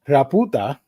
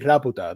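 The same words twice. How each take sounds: First: The word is said slowly, syllable by syllable. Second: The word is said very fast, run together. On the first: It sounds like a rude word. The speaker calls it wrong. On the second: It avoids sounding like a rude word. The speaker calls it right. "like super fast"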